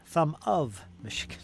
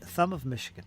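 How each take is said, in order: First: "of" set apart and leaned on; "of" punched as its own beat; stress on "of". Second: Said in the usual way. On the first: Real, not acted. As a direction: lean hard on "of", giving it its full vowel. Repeats phrase, stressing 'of'.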